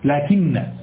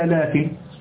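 First: The final n is doubled and held longer. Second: The final n is single and short.

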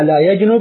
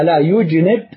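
First: The verb's first letter is voiced with an a-vowel. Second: The verb's first letter is voiced with a u-vowel. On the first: The verb comes from the three-letter form. "هذا من الثلاثي من جنب يجنب" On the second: The verb comes from the four-letter form. "المضارع هنا ضم أوله"

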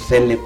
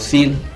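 First: The name is said as two syllables. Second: The name is said as one syllable. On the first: "yo lo menciono Cele porque me gusta hablar naco" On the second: "O Sil"

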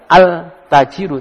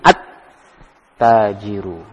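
First: The L sound is pronounced before the T. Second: The L merges into a doubled T sound. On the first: The speaker calls it wrong. "Bukan dibaca al-tajiru" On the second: The speaker calls it right. "alnya tidak terbaca ... tapi at-tajiru"

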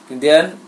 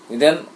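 No difference in how they are said.

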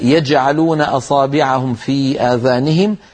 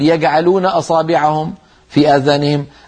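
First: The jim is said as a j sound. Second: The jim is said as a hard g. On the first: The speaker calls it right. "لابد أن ننطق الجيم كما رويت لنا عن رسول الله" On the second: The speaker calls it wrong. "ما بيصح الواحد يقول"

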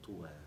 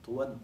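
First: The word ends with a long vowel. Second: The word ends with an n sound. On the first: "وقد لا ينون" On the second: "منون"

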